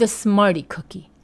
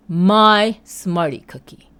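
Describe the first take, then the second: First: Said in the usual way. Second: "my" stressed, slow and louder. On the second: Shown as a demonstration. Telling viewers the cookie was hers, stressing "my" slowly. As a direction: lean on "my" slowly.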